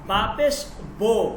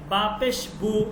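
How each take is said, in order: First: The vowel is a mid 'o' sound. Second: The vowel is a high 'oo' sound. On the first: This is the Persian reading. "ফার্সির মধ্যে ... বু উচ্চারণ করলে হবে না, বলতে হবে" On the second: This is the Arabic reading. "আরবিতে যদি কোনো বর্ণের উপর আপনি পেশ দেন"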